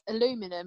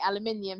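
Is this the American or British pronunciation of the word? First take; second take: American; British. First: It is said with the American pronunciation. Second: It is said with the British pronunciation. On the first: "they say like aluminum" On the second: "we say aluminium"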